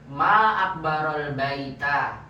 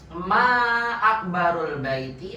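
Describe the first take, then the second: First: The last word ends with an a vowel. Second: The last word ends with an i vowel. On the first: It exclaims how big the house is. "Alangkah besarnya rumah itu" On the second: It asks what is biggest about the house. "Apa yang paling besar dari rumah gitu"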